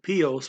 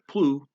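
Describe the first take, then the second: First: The word is said in its full form. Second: The word is said in a shortened form. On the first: "looks like it would be pios" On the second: "gets shortened to plu"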